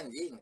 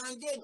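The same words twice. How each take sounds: First: The word is said in a neutral, mild way. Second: The word is said in a harsh, insulting way.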